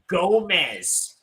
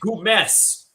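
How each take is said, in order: First: The name is said with American pronunciation. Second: The name is said with French pronunciation. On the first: The speaker calls it wrong. "it's not Gomez or Gomez. As you Americans like to pronounce" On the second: The speaker calls it right. "it is pronounced Gomez"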